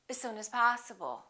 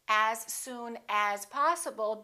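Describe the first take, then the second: First: The word as has a reduced vowel. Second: The word as has a full vowel.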